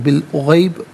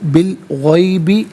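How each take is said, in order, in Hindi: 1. शब्द व्यंजन पर समाप्त होता है। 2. शब्द एक छोटे स्वर पर समाप्त होता है।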